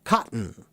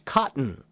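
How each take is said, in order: First: The middle T is cut short, only half pronounced. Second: The same.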